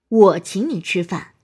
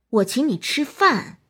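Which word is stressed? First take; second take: 我; 饭. First: The word 我 carries the stress. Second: The word 饭 carries the stress. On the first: "突出我" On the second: "突出饭"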